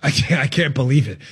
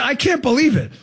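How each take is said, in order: First: Low, deadpan fake shock; sarcastic disbelief. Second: Higher, mock incredulous; sarcastic disbelief. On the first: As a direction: groan it in mock disbelief. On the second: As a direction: toss it off in fake shock. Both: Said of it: "if you're sensing the dripping sarcasm".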